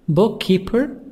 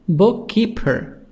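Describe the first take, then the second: The two takes are said the same way.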